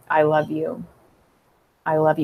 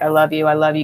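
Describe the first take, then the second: First: It sounds warm and genuinely loving. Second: It sounds impatient and dismissive.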